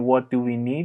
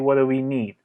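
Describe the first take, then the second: First: Each word of "what do" is said clearly. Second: "What do" blends together into "wadda". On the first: "instead of saying" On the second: "you can say ... it's easier to pronounce"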